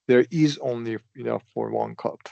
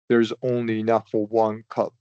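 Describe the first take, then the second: First: The word 'is' is stressed. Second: The word 'is' is not stressed.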